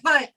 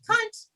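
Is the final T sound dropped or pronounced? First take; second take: dropped; pronounced. First: The final T sound is left off. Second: The final T sound is clearly pronounced. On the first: It is meant as a hostile insult. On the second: It is harmless and friendly.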